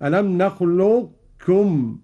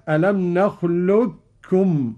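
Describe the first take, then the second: First: Slow "نخلقكم" keeping a heavy qaf without bounce; hint of a full qaf before kaf in "نخلقكم"; "نخلقكم" with the qaf's heaviness, no echo; partial assimilation. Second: Slow "نخلقكم" with a doubled kaf; "نخلقكم" as nakhlukkum; full assimilation. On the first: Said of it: "الإدغام الناقص ... بدون قلقلة هكذا". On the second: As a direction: merge the qaf fully into kaf in "نخلقكم". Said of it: "الإدغام الكامل كاف مشددة". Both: Shown as a demonstration.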